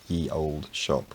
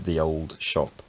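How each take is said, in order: First: The first word starts with a y sound. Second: The first word starts with a th sound. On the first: This is the popular modern reading of the spelling. The speaker calls it wrong. "most people's idea of how this is pronounced" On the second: This is how it was said in early modern English. The speaker calls it right. "in early modern English it was actually pronounced uh, closer to"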